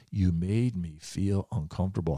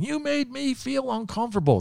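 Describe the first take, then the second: First: Said in the usual way. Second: Much higher-pitched mock of her complaint; mocking angry woman. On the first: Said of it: "That's what I'll never forget". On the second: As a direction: parody her offended whine, way up high. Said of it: "continued to tell him off".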